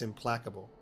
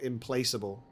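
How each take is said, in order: First: The word is said with its usual short vowel. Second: The word is read out letter by letter. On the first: This is how it is actually pronounced. The speaker calls it right. "but it's implacable" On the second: This is how the spelling looks. The speaker calls it wrong. "it's spelt implaceable"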